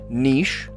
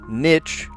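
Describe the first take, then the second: First: The word has a long ee vowel, like sheesh. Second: The word has a short i vowel, like pitch. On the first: "Niche rhymes with sheesh" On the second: "or niche"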